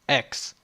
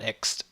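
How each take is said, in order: First: The word is said with strong, forceful emphasis. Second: The word is said plainly, without extra force. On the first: The speaker calls it right. "You gotta put an emphasis on the X" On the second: The speaker calls it wrong. "Not X"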